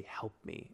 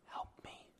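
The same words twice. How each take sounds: First: "Help me," said softer, almost hushed; softened retold whisper. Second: A breathy unvoiced "Help me."; retold whisper. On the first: Host reading the call's final words, hushed. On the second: Host retelling the caller's last words on the call, whispered. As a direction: whisper "Help me." like a faint voice on the tape. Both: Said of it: "in a whisper".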